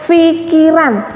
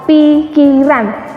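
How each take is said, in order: First: The first consonant is an 'f' sound. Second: The first consonant is a 'p' sound. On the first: The speaker calls it wrong. "taunya atau ngucapnya pikiran" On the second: The speaker calls it right. "Yang benar adalah pikiran"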